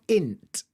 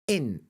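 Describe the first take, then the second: First: The word ends with a clearly released T. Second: The word ends with a glottal stop. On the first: The speaker calls it wrong. "It's not int" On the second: The speaker calls it right. "It's like a glottal stop"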